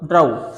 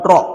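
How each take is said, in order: First: The vowel sounds like 'ow' in cow. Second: The vowel sounds like 'aw' in saw. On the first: The speaker calls it wrong. "ओ डब्ल्यू काय काय आऊ ड्र आऊ ड्राऊ" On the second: The speaker calls it right. "Sorry हा काय येणार चुकला हा शब्द ड्र ऑर ड्रॉ"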